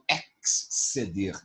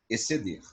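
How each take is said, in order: First: An s sound is heard before the c. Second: No s sound is heard before the c. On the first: The speaker calls it wrong. "Eu não falo exceder" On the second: The speaker calls it right. "é exceder"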